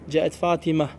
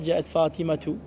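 First: The name ends in a bare 'a' sound. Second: The name ends with a full 'tu' ending. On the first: The speaker stops at the end of the phrase. The speaker calls it right. "comment on s'arrête au niveau des dernières lettres" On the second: The phrase is treated as continuing. The speaker calls it wrong. "Tu dis pas"

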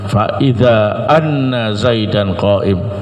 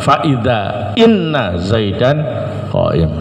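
First: The particle begins with an 'a' vowel. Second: The particle begins with an 'i' vowel. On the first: "boleh dibaca fathah" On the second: "Bisa juga dikasrah"

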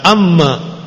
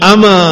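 First: The m sound is doubled and held longer. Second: The m sound is single and short. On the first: The speaker calls it wrong. "Jangan dibaca amma, bukan" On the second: The speaker calls it right. "dibaca ama dengan ringan tanpa tasdid"

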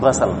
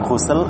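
First: The first vowel is an 'a' sound. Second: The first vowel is a 'u' sound.

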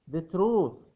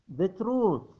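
No difference in how they are said.

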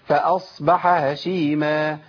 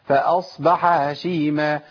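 No difference in how they are said.

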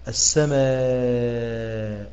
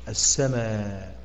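First: The final long vowel is held for four counts. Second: The final long vowel is held for two counts. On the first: "الإبدال بالتوسط" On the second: "فنقف بالقصر"

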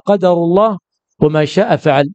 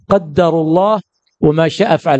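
First: The d in the first word is single. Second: The d in the first word is doubled. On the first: This is God's decree, not your own choice. "وفي الثاني تقول هذا قدر الله" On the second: God decreed it, and it was not by your will. "هذا بالتشديد"

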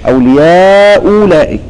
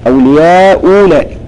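Both takes have the same delivery.

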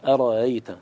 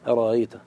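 Both takes have the same delivery.

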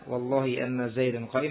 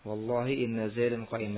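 First: The particle is said with an a vowel, anna. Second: The particle is said with an i vowel, inna. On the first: The clause functions as a verbal noun. "Kalau sekarang dibaca anna" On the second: The clause is the answer to the oath. "hanya dengan satu sisi saja kasrah"

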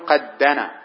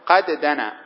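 First: The two d sounds merge into one doubled d. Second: The two d sounds are pronounced separately. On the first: The speaker calls it right. "تقول قد دنا" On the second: The speaker calls it wrong. "ولا يجوز أن تقول قد دنا، هذا غلط"

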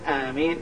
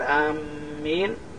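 First: The m sound is short, not doubled. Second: The m sound is doubled and held longer. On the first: It is a prayer asking for an answer. The speaker calls it right. "يعني اللهم استجب" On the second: It means people who are heading somewhere. The speaker calls it wrong. "فإن شدد الميم قال آمين فهذا ما يصلح"

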